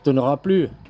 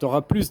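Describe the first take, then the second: First: The final S of plus is silent. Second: The final S of plus is pronounced. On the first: You will have no more of it. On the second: You will have more of it.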